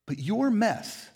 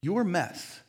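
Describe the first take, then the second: First: Your mess stressed slowly; slow emphatic. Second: Your mess stressed again, level; emphatic repeat. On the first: To the congregation, stress on your mess. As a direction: lean on your, slow and weighty. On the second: To the congregation, stress on your mess again. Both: Real, not acted. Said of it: "you need to hear this".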